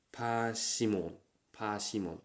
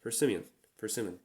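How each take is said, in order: First: Persimmon as pashimon, no r, slow; katakana English. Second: Persimmon with a clear English r; English pronunciation. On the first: Contrasting katakana and real English persimmon. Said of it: "katakana English or waseigo". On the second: Giving the correct English persimmon. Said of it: "not persimmon". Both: Shown as a demonstration.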